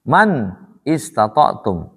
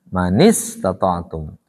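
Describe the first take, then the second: First: The two words are said separately, unjoined. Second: The words are joined with an added i vowel.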